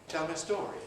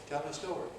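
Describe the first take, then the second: The two takes are said the same way.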